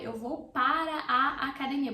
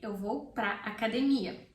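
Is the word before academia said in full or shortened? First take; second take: full; shortened. First: The word before academia is said in full. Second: The word before academia is said shortened.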